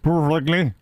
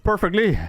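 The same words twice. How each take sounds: First: The word is pronounced in a mangled way. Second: The word is pronounced cleanly and in full. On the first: The speaker calls it wrong. "It's not perfectly" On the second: The speaker calls it right. "the word is perfectly"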